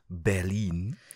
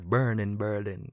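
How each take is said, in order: First: It is said with a standard German accent. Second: It is said with a Jamaican accent. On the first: "as a Hochdeutsch, you would say Berlin" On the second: "I like to put my Jamaican speaking and say Berlin"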